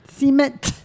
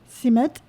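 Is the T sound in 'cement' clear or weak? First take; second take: clear; weak. First: The T sound is clearly pronounced. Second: The T sound is weak or barely heard. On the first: The speaker calls it right. "Pronounce the T" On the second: The speaker calls it wrong. "There's no emphasis on the T"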